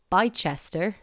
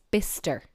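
First: "Bicester" as written, BY-chester; three syllables in "Bicester", like bye-chester; spelling pronunciation. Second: "Bister" in two short syllables; local pronunciation. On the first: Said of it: "looks like it's". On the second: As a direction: say BISS-ter, no "chester". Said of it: "No, it's". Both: Shown as a demonstration.

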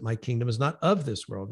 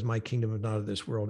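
First: "of" picked out as the key word; stress on "of". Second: Said in the usual way. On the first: Shown as a demonstration. Guest explains the verse to listeners, stressing "of". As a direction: lean on "of" to mark the distinction. Corrects reading by contrasting "of.

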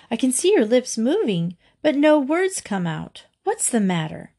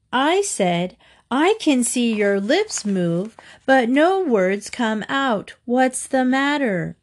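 First: Said in the usual way. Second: Slow, emphatic repeat at raised pitch; mild shout, each word drawn out for a deaf listener; narrated shout. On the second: A narrator's reading. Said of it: "Mary shouted".

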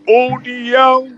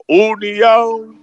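First: Higher, slower, louder call of União; stretched, louder repeat of União; driver calling again louder. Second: Drawn-out call of the stop name; slow, drawn-out shout of União; driver calling out loud. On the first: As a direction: call the stop harder the second time. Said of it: "Ele falou novamente". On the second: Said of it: "ele fala bem alto". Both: Retold or imitated.

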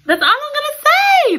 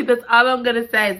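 First: Very high, loud "That's all I'm gonna say"; squealed tease. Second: Said in the usual way. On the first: Real, not acted. Reader teasing viewers about the ending, squealing. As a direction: shriek it playfully.

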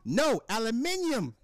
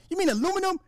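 First: High, slow British "aluminium"; mock British accent. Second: Very high questioning voice; mock the wife correcting, pitched way up; imagined puzzled wife. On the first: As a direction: insist as a pretend Brit, slowly and high. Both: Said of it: "imagine me telling the wife".

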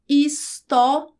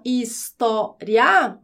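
First: "história" slowly in four beats, his, tó, ri, a; hiatus syllabification. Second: "história" slowly in three beats, his, tó, ria; syllabify "história" with the final I and A in one beat; diphthong syllabification. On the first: Teacher turning diphthong into hiatus, each syllable separated. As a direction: split the final "ria" of "história" into ri and a. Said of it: "aqui eu optei por separar". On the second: Teacher recalling the rising diphthong, slow syllables with "ria" joined. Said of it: "aquele ditongo crescente que eu havia". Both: Shown as a demonstration.

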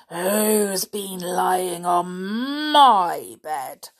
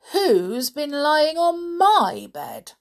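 First: Loud, very slow growl, MY drawn right out; growly father bear. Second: High, loud, slow indignant mama bear; mother bear. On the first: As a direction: growl it like an outraged papa bear. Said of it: "in a growly voice". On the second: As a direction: lift it high and stretch the question. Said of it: "said the mother bear". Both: A narrator's reading.

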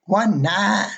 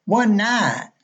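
First: "One night" run together, drawled, higher; imitating a young Southern clerk's drawl; Alabama accent. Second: "One night" blurred to "wunnite", pitched higher; lightly mimicking the clerk's Southern slur; Alabama accent. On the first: Motel clerk asking a tired pilot, lightly Alabama drawl. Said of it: "the young girl goes". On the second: Clerk repeating herself to a puzzled guest, mild Alabama drawl. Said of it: "Beg your pardon?".

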